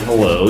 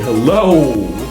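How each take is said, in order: First: It is said plainly in a normal voice. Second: It is stretched with an extra syllable and emphasis. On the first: "instead of saying hello" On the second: "add an extra syllable to the word and then put a little emphasis"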